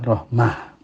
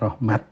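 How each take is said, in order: First: The word ends with a soft h sound. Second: The word ends with a clear t sound. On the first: The word is written with a tied ta. "tak marbuthah, maka wakafnya rahmah" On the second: The word is written with an open ta. "ditulis dengan tak maftuhah ... cara mewakafkan kan adalah rahmat"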